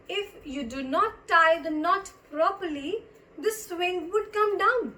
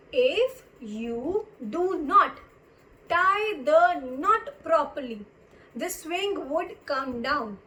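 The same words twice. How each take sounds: First: Said in the usual way. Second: Very slow, deliberate teacher's reading; drawn-out words with pauses between phrases; slow repeat. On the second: Shown as a demonstration. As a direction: spell it out word by word for learners. Slow repeat of example sentence.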